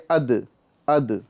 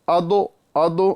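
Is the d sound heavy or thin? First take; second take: thin; heavy. First: The d sounds thin and light. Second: The d sounds heavy, with rounded lips. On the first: The speaker calls it right. "दाल को बारीक करना है" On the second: The speaker calls it wrong. "अदो अदो नहीं करना है"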